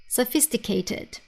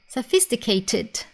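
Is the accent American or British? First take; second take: British; British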